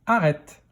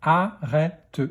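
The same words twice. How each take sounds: First: Said in the usual way. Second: "Arrête" split into a, rè, te; "Arrête" in three separate beats; syllable by syllable. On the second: Shown as a demonstration. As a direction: sound out "Arrête" with a final te. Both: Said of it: "dans quelle syllabe".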